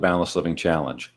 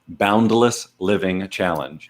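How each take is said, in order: First: The phrase is said at a normal pace. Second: The phrase is said slowly and carefully.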